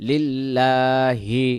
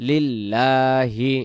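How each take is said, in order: The two takes are said the same way.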